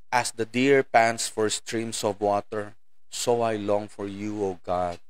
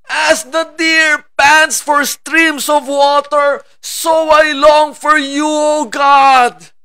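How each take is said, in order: First: It is read flatly, without feeling. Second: It is read with passion and emotion.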